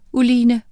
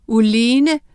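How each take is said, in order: First: Called out loud; shout. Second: Said in the usual way. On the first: Acted. Miranda calling out to Oline, loud. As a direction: call her name urgently. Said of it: "råbte Miranda".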